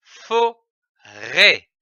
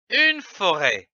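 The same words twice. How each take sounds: First: "forêt" as fo, then rêt, with a pause between; syllable by syllable. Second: Said in the usual way. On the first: Shown as a demonstration. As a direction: sound out "forêt" in two separate beats. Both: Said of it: "L'association de ces syllabes donne".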